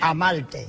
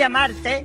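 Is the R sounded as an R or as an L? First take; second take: L; R. First: The R is pronounced like an L, Puerto Rican style. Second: The R is pronounced as a standard Spanish R.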